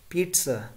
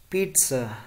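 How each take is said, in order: Both takes have the same delivery.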